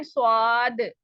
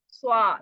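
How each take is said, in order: First: स्वाद said with rounded Urdu स्वा, the mistake; wrong Urdu swaad. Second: स्वा said as the Urdu habit; Urdu swa. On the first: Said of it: "हम क्या पढ़ते हैं". (गलत उर्दू अंदाज़ में स्वाद) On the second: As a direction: clip स्वा the rounded Urdu way. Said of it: "Urdu में स्वाद पढ़ने की आदत". (उर्दू आदत वाला स्वा) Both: Shown as a demonstration.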